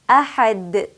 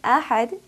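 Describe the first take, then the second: First: The final consonant ends with an echoing bounce. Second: The final consonant stops cleanly without an echo. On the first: The speaker calls it right. "I will say ahad, ahad. Did you hear the echo at the end?" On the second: The speaker calls it wrong. "instead of saying ahad"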